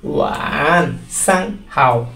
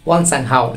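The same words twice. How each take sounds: First: "ওয়ান সাং হাও" slow, with "ওয়ান" stretched in third tone; tone demonstration. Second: Said in the usual way. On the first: Shown as a demonstration. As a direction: separate the syllables of "ওয়ান সাং হাও", lingering on "ওয়ান". ("ওয়ান সাং হাও" ধীরে, tone টেনে টেনে) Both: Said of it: "Chinese tone দিয়ে কীভাবে উচ্চারণ করবো?".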